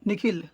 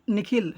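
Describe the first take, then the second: No difference in how they are said.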